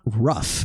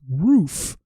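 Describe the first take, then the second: First: The vowel is short, close to 'rough'. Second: The vowel is long, like in 'food'. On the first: The speaker calls it wrong. "not rough" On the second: The speaker calls it right. "It's roof"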